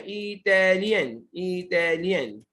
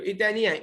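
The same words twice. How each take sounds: First: Slow, measured dictation of "इटालियन" for the class; slow sounding-out. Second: Said in the usual way. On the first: Shown as a demonstration. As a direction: stretch इटालियन out syllable by syllable. Teacher sounds out word for students. ("इटालियन" धीरे-धीरे, तोड़कर)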